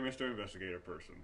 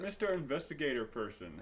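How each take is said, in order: First: It is read in an uncaring character voice. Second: It is read plainly in a normal voice.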